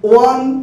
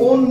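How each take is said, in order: First: The vowel sounds like 'wun', as in 'one'. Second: The vowel sounds like 'own', with no 'w'. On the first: The speaker calls it right. "বারবার বলি উইন, ওয়ান" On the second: The speaker calls it wrong. "কখনোই ওন নয়"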